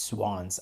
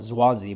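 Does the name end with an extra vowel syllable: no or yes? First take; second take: no; yes. First: The name ends without an extra vowel syllable. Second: The name ends with an extra vowel syllable. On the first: The speaker calls it right. "apparently it's just Swans" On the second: The speaker calls it wrong. "I used to always call it Swansea"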